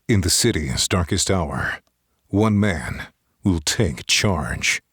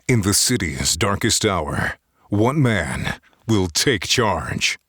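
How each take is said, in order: First: It is read softly in a flatter voice. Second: It is read powerfully with strong voice pressure.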